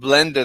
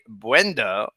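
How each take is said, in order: First: The word is said with a clear L sound. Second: The word is said with no L sound. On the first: The speaker calls it right. "Instead of blender" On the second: The speaker calls it wrong. "They all cannot pronounce an L"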